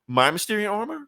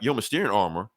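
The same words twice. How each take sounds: First: "my" corrected in a much higher questioning voice; stress on MY. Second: Said in the usual way. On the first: Retold or imitated. Correcting who owns the armor, pointed stress on "my". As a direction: throw "my" back high, as a pointed question.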